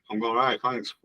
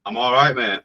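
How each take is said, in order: First: Whispered, voiceless and soft; mock-secretive whispered thanks; playful whisper. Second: Said in the usual way. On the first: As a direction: breathe the reply like a secret. Repeats greeting in a whisper.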